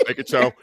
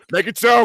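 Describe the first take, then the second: First: Said in the usual way. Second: Higher, louder Make it so; Picard catchphrase. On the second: Shown as a demonstration. Player repeating Picard's catchphrase as a louder captain's order.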